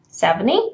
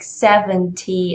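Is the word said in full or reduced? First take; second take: reduced; full. First: The t sound near the end is weakened. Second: The t sound near the end is pronounced. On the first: "being reduced to uh, this kind of pronunciation" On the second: "you would probably want it to sound like seventy and twenty"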